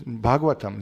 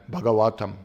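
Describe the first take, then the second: First: Said in the usual way. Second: "Bhagavatam" with a heavy, long "WA"; mispronounced Bhagavatam. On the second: Shown as a demonstration. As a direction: lean on the third syllable of "Bhagavatam". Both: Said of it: "even this much we can't pronounce".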